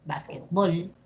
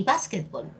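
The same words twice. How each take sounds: First: Básquetbol said basquet-BOL; Básquetbol with BOL leaned on; final stress. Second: Básquetbol said BÁS-quetbol; básquetbol with BOL unstressed; first-syllable stress. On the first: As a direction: stress the last syllable of Básquetbol. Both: Shown as a demonstration. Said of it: "Tenemos también básquetbol".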